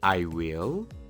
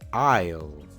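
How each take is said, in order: First: It is said as two full words. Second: It is shortened into one syllable. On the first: "En vez de decir" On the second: "mejor di"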